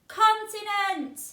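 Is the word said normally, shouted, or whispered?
shouted. The word is shouted very loudly. "Now I'm going to shout it really loud"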